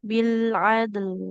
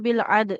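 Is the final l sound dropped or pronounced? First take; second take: pronounced; dropped. First: The final l sound is clearly pronounced. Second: The final l sound is left out. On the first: The speaker calls it right. "lamnya nggak boleh hilang" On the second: The speaker calls it wrong. "nggak boleh bil ad"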